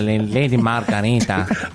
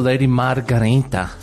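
First: It is said in a strong Spanish accent. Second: It is said in the speaker's plain accent.

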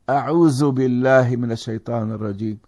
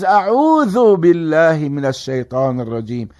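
First: The first word has a z sound. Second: The first word has a voiced th sound. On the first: The speaker calls it wrong. "Why am I saying a'uzu while it is a'udhu?" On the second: The speaker calls it right. "It is a'udhu"

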